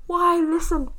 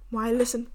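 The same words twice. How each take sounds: First: High, loud repeat of the question; mock exasperated outburst. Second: Said in the usual way. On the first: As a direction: cry it out in exaggerated protest.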